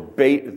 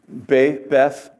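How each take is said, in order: First: The word ends with a t sound. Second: The word ends with a th sound.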